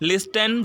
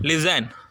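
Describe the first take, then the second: First: The t sound is pronounced in the middle. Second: The t sound is left silent. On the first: The speaker calls it wrong. "லிஸ்டன் சொல்லலை" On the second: The speaker calls it right. "அப்போ நம்ம என்ன சொல்கிறோம்? லிசன்"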